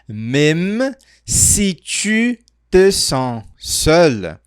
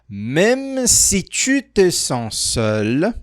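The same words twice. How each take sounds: First: It is said more slowly. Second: It is said at a normal speed.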